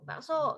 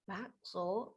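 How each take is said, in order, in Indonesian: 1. Diucapkan sebagai panggilan keras. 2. Diucapkan sebagai pertanyaan ragu. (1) "diakhiri tanda seru" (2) "diakhiri dengan, eee, tanda tanya"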